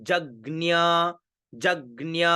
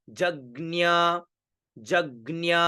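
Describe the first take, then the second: Both takes have the same delivery.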